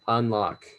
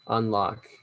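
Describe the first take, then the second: No difference in how they are said.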